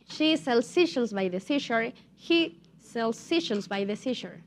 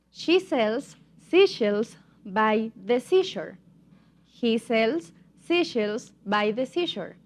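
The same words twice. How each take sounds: First: Tongue twister run together more quickly; faster demonstration. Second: Slow, spaced-out tongue twister; slow demonstration. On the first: Teacher repeats the tongue twister for students, a bit faster. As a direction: pick up the pace, no gaps between phrases. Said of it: "now a little bit faster". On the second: Teacher models a tongue twister for English learners, slowly. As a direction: say it slowly, word group by word group. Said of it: "but now a little bit faster". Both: Shown as a demonstration.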